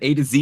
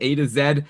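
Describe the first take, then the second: First: The last letter is said the American way, zee. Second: The last letter is said the Canadian way, zed.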